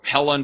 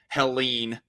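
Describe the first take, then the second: First: The name ends with a short 'len' sound. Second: The name ends with a long 'leen' sound. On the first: The speaker calls it wrong. "I thought it was pronounced Helen" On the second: The speaker calls it right. "I guess it's pronounced Helene"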